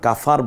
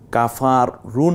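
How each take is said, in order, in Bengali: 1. শেষে একটি খালি ব্যঞ্জনধ্বনি আছে। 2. শেষে একটি যোগ করা স্বরধ্বনি আছে। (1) "আমরা কাফার বলবো" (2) "না বলে"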